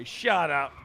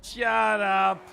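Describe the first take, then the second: First: Short firm retort; firm shut up. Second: Louder, higher mock outrage; shouted shut up. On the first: Acted. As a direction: shut them down flatly. Snapping back at teasing. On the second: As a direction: yell it, playfully outraged. Second, bigger retort.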